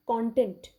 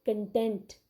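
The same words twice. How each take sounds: First: CONTENT said KON-tent, full first vowel; noun pronunciation. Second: CONTENT as kuhn-TENT; verb pronunciation. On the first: Teacher giving students an example, noun CONTENT as KON-tent. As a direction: stress the first syllable of "content". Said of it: "That is a noun". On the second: Teacher repeating the verb for students, CONTENT as kuhn-TENT. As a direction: land on the last syllable of "content", reducing the first. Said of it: "So this word is a verb". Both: Shown as a demonstration.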